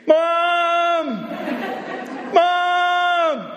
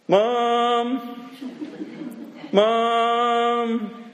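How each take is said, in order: First: It is shouted very loudly and desperately. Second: It is called louder and more urgently.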